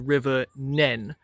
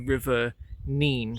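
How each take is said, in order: First: The name has a short vowel, like 'pen'. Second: The name has a long vowel, like 'seen'. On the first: This is how it is said near the upstream end. "If you're on the Northampton side, it is pronounced as the River Nen" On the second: This is how it is said near the downstream end. "if you're on the Peterborough side, it is the River Nene"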